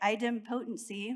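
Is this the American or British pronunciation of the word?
American. It is said with the American pronunciation. "The Americans say it"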